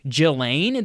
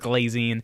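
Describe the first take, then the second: First: The name begins with a soft 'zh' sound. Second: The name begins with a hard 'gl' sound. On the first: "that's how you pronounce this lady's name" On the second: "I'm going to keep pronouncing it as Glazine"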